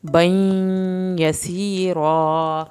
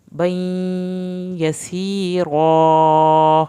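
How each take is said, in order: First: "بین یسیرا" slow, doubled ya held gently; gentle slow recitation; soft ya shadda. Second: "بین یسیرا" very slow, held on the doubled ya; slow drawn-out recitation; held ya shadda. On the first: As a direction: hold "بین" softly without harshness. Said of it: "ہم نے وہاں پہ سختی نہیں دکھانی". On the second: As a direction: linger on "بین" before "یسیرا". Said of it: "یہاں پہ دیر لگے گی". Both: Shown as a demonstration.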